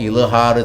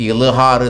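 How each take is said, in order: No difference in how they are said.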